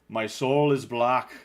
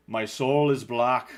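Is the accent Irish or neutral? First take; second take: Irish; Irish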